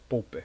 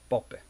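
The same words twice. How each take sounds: First: The first syllable does not sound like 'pop'. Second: The first syllable sounds like 'pop'. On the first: The speaker calls it wrong. "a gente não fala Popper" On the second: The speaker calls it right. "é Popper"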